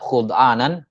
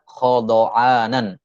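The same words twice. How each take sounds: First: The first vowel is u; the dh has none. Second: The first vowel is a; the dh has a. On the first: "di dhamma kha al-mu'jamah ya dan disukun dha al-mu'jamah" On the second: "Kha di fathah dan dha di fathah"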